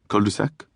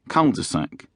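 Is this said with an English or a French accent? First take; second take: French; English. First: It is said with a French accent. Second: It is said with an English accent.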